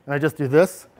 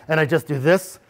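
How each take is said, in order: Both takes have the same delivery.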